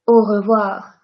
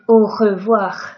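First: The R is soft with a light vibration. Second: The R is exaggerated and harsh in the throat. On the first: The speaker calls it right. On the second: The speaker calls it wrong.

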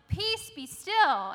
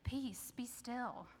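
First: It is yelled loudly and forcefully. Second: It is said drowsily, with a yawn.

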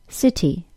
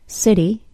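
First: The middle sound is a crisp, clear T. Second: The middle sound is a quick D-like flap. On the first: "saying the T sound as a normal T sound" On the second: "With a D sound in a normal English American accent"

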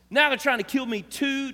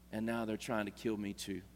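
First: It sounds aggravated and exasperated. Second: It sounds calm and peaceful.

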